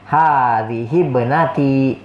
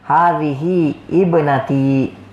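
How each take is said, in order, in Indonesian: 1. Kedua kata itu disambung tanpa hamzah. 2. Hamzah dibaca sebelum 'ibnati'. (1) "tapi bacanya hadhihi ibnati. Jadi alifnya tidak dibaca" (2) "kita tidak boleh katakan hadhihi ibnati ya, nggak boleh"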